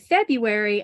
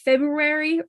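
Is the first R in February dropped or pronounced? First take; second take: dropped; pronounced. First: The first R sound is left out. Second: The first R sound is clearly pronounced. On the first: The speaker calls it right. "I always said February. Never did I try to add the R" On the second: The speaker calls it wrong. "I decided that I should try to add that R sound"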